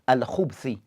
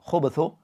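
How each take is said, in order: First: No vowel follows the b sound. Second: A short u vowel follows the b sound. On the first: It refers to evil things in general. "So the ba have a sukun" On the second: It refers to the male devils. "with both dhamma"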